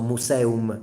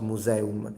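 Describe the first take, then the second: First: The middle consonant is a hissing s sound. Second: The middle consonant is a buzzing z sound. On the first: The speaker calls it right. "so museum" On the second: The speaker calls it wrong. "not museum"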